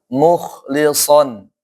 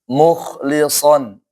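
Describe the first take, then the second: Both takes have the same delivery.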